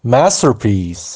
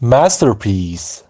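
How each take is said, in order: The two takes are said the same way.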